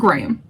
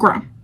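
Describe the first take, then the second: First: The name is said with British pronunciation. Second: The name is said with non-British pronunciation. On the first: The speaker calls it right. "in the U K, Graham de Vanilli is pronounced Graham" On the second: The speaker calls it wrong. "not Graham"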